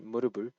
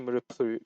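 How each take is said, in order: First: The middle consonant is a softer b sound. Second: The middle consonant is a crisp p sound. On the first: The speaker calls it right. "you just Murubul" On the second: The speaker calls it wrong. "you don't say Murupul"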